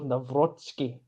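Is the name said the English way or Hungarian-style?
Hungarian. The name is said Hungarian-style, with a ts sound.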